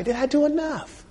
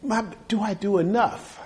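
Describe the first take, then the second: First: Much higher, softer, pleading; a high, hushed cry of doubt; anguished self-question. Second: Raised, quiet asking; a quiet, uncertain question to oneself; searching self-question. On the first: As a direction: let it crack upward in doubt. Preacher's self-question climaxes, anguished. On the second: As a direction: ask yourself softly, not yet pleading. Preacher asks himself, building. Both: Acted.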